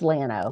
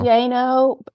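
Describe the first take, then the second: First: The double L is a plain English L. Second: The double L has the Spanish sound. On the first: This is how the name is said locally in Texas. "but it's Llano because in Texas we've lost the whole" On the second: This is how the name is said in Spanish. "should be"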